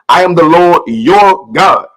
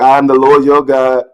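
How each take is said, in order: First: It is said firmly, like an order. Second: It is read plainly, without force. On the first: It is a command that must be obeyed. The speaker calls it right. "These words are coming out like commandments, orders" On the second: It is just words being read. The speaker calls it wrong. "Instead of just reading the Bible like"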